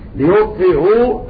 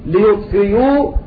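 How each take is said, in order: First: The hamza is softened between hamza and vowel. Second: The hamza is replaced by a full y sound. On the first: "التسهيل" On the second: "الإبدال ياء خالصة"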